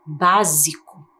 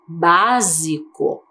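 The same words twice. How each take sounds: First: Básico, said slowly with the s clearly voiced as z; slow z sound. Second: Básico, drawn out very slowly with the s as a buzzing z; slow z sound. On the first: Teacher showing children the z sound. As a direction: linger on the z in Básico. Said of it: "Agora ele tem som de Z". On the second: Teacher slowly sounding out a word for children. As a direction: stretch Básico so the z is heard. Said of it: "É a mesma letra". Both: Shown as a demonstration.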